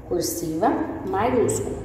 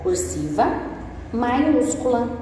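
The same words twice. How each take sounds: First: Said in the usual way. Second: Teacher spelling out maiúscula, pitched up; stress on maiúscula. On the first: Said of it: "Sim, ó". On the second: Shown as a demonstration. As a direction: lean hard on maiúscula. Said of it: "Desse jeitinho aqui, ó".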